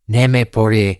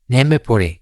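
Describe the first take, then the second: No difference in how they are said.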